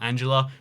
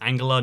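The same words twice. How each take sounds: First: The name is pronounced the English way. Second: The name is pronounced the German way. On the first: The speaker calls it wrong. "not Angela" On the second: The speaker calls it right. "it's Angela"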